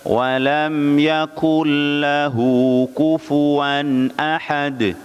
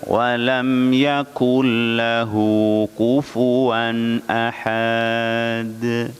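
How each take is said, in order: First: The final vowel is kept short. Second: The final vowel is drawn out long. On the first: The speaker calls it right. "Kalau pendek ya tetap dibaca pendek" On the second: The speaker calls it wrong. "akhirannya itu dengan panjang. Ini keliru besar"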